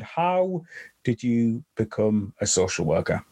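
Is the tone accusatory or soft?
soft. It sounds gentle and soft.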